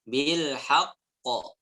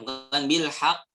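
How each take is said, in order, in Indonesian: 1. Huruf q terakhir dilepas dengan pantulan yang bergema. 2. Huruf q terakhir berhenti datar tanpa pantulan. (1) "Bil haq ada jeda baru dipantulkan" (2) "bukan bil haqq, bukan"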